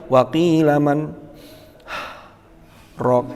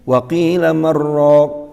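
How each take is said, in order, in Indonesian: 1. Ada titik henti dengan napas. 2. Kata-katanya menyambung tanpa jeda. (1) "Wakaf kan cirinya harus ambil nafas. Tidak boleh" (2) "maka itu tidak diperkenankan"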